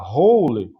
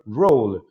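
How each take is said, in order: First: It starts with a breathy H-like sound. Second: It starts with an English-style R sound. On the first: The speaker calls it wrong. "pronuncia como é tipo no português e fala roll" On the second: The speaker calls it right. "tem que pronunciar roll, com R, r, r, roll"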